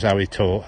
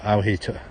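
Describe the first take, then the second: First: "how he" said with no H sounds; dropped H's. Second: "how he" with both H's sounded; H's pronounced. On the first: Stoke speaker showing viewers the local way, dropped H's. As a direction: drop both H's in "how he". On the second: Stoke speaker correcting it for viewers, H's pronounced. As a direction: clearly breathe the H at the start of "how" and "he". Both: Shown as a demonstration. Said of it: "we don't say H's".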